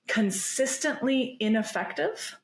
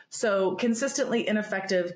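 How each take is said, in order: First: "consistently ineffective" drawn out slowly, pitched much higher on "consistently"; emphasized term. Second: Said in the usual way. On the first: Shown as a demonstration. Author spelling out a key term for the host, "consistently ineffective" slow and high. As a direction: lean hard on "consistently ineffective", slow and lifted. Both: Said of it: "so consistently ineffective could mean".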